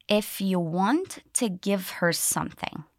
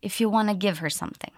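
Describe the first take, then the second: First: Slow, careful, each linked sound clear; slowly. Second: Fast, natural linked speech; naturally. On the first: Teacher drilling linking sounds for learners, slow. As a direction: stretch it out word by word. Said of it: "Let's do it once slowly". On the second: Teacher showing the natural spoken version, fast. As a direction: run the words together quickly. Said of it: "then we'll do it naturally". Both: Shown as a demonstration.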